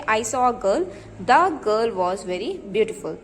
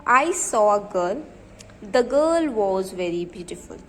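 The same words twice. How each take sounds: First: Put-on "the" in "the girl" picked out with a falling accent; slow reading that points at "the" before "girl"; stress on the. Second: Each word read slowly and evenly, as if dictating; slow, even classroom dictation. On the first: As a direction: lean on "the" to show the definite article. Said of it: "ये क्या हो गया हमारा definite article". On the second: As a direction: spell the sentence out slowly for the class. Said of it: "मैं आपको example बताती हूँ". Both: Shown as a demonstration.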